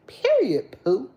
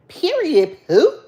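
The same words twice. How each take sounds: First: High sassy "Period, poo" with a falling "Period"; cousin voice. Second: Sassy high loud "Period, poo"; cousin's catchphrase. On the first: Imitating her cousin's voice for live viewers, high and sassy. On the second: Mimicking her cousin's sassy catchphrase, loud and high. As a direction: snap out "Period" with attitude. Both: Retold or imitated. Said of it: "in my cousin voice".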